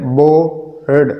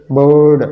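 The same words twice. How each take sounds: First: "बोर्ड" slowly as बो, pause, र्ड; syllable by syllable. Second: Said in the usual way. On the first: Shown as a demonstration. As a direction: split "बोर्ड" before its final sounds. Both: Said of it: "ये वो तरीका है".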